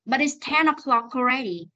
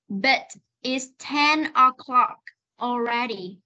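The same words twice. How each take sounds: First: "But it's ten o'clock already" in one quicker run; fast linked reading. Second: "But it's ten o'clock already" word by word with pauses; slow reading. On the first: Teacher contrasts for the class, fast linked reading. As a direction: link "o'clock" straight into "already". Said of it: "Còn nếu đọc nhanh này". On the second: Teacher shows the class one last time, slow reading. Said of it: "Nếu đọc chậm thì nó sẽ là". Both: Shown as a demonstration.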